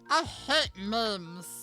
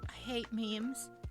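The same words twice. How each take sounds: First: It is said in a put-on character voice. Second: It is said in the speaker's normal voice.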